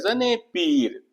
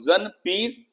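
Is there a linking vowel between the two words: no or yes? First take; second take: yes; no. First: A short linking vowel joins the two words. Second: The two words are joined with no linking vowel. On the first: The speaker calls it right. "लेकिन जब हम कहते हैं जने पीर ... रिदम पैदा होता है" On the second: The speaker calls it wrong. "अगर मैं इसे बिना इजाफत के पढ़ता हूँ, ... तो देखिए इसमें ना तो रिदम है"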